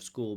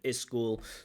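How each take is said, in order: First: The word begins directly with the s sound. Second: An extra vowel sound comes before the s. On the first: The speaker calls it right. "Instead of school" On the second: The speaker calls it wrong. "limited phonological range"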